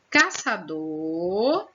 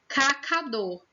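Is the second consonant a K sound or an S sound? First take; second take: S sound; K sound. First: The second consonant sounds like S. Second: The second consonant sounds like K. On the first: "escritas com o C e o cedilha" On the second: "sem o cedilha"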